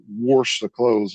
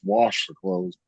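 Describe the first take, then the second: First: An R sound is added inside 'wash'. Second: No R sound is added inside 'wash'. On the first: This is how a relative said it. The speaker calls it wrong. "He'd say I'm gonna go wash the clothes" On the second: This is the usual way to say it. The speaker calls it right. "it's wash the clothes"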